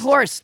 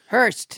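First: The vowel sounds like 'or' as in 'horse'. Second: The vowel sounds like 'ur' as in 'hurt'. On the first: The speaker calls it wrong. "Not Horst" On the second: The speaker calls it right.

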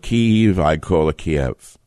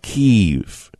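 First: The city name has its older, familiar pronunciation. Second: The city name has its newer, recently adopted pronunciation. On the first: "I call it Kiev. Everyone called it Kiev for hundreds of years" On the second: "Now it's Kiev"

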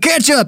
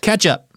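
First: It is said with an American pronunciation. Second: It is said with an Indonesian pronunciation. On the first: It names the tomato condiment. "me going ketchup as an American" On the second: It names soy sauce. "it's not exactly pronounced like me going ketchup as an American"

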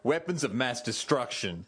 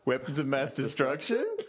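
First: The voice falls at the end. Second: The voice rises at the end. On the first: It is a plain statement. "he started off going" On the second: It asks the listener to confirm understanding. "at the end he was like"

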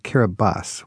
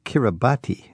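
First: The 'ti' is said with an s sound. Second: The 'ti' is said with a t sound. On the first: "We pronounce it Kiribati" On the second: "it's spelled Kiribati"

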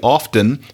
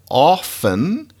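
First: The word is said with an audible T. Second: The word is said with a silent T.

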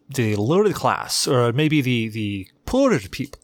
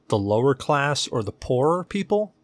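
First: It is said in a put-on British accent. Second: It is said in the speaker's normal accent.

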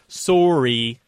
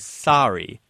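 First: It sounds like 'soerry', with a Canadian vowel. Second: It rhymes with the garment sari. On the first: "we tend to mimic one of our Canadian friends when she says it" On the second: "most people say Sari, kind of to rhyme with the Indian garment"

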